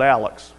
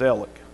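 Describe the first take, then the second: First: The name ends with a ks sound. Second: The name ends with a plain k sound. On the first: The speaker calls it wrong. "It's not Alex" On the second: The speaker calls it right. "It's Alec"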